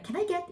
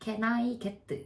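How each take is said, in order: First: It has natural native English intonation. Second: It has flat, Korean-style English intonation. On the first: The speaker calls it right. "이렇게 인토네이션이 바뀌는" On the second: The speaker calls it wrong. "이게 아니라"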